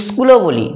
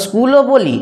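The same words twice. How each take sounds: First: স্কুলও starting with an extra short i; added initial vowel. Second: Said in the usual way. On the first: Shown as a demonstration. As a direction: say স্কুলও as "is-kul-o". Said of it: "একটা অতিরিক্ত হস্যই নিয়ে চলে এলো". (স্কুলও-র শুরুতে বাড়তি ই ধ্বনি) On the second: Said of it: "যারা স্কুল বলছে তারা যথার্থ উচ্চারণ করছে".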